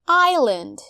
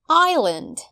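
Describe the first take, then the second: Both takes have the same delivery.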